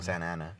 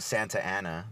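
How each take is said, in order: First: The T in Santa is dropped. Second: The T in Santa is clearly pronounced. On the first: "I just go Santa Ana" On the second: "I wouldn't go Santa Ana. That's weird"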